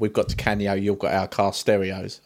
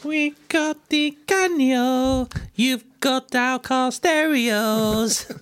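First: It is said in the speaker's normal adult voice. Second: It is said in a put-on childish voice.

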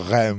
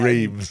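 First: The name is said the French way, like 'rem'. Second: The name is said the English way, like 'reams'. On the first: "Would you say a rem as well" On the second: "rather than reams"

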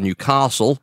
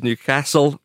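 First: It is said in a southern English accent. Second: It is said in a northern, local accent. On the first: This is how southerners say it. The speaker calls it wrong. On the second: This is how locals say it. The speaker calls it right.

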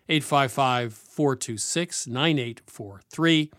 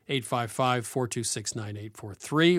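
First: The number is said at a slow pace. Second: The number is said at a faster pace.

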